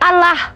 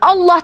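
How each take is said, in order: First: The L is pronounced light and clear. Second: The L is pronounced heavy and dark. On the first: This is claimed to be a different name. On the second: This is the reading of the Arabic spelling.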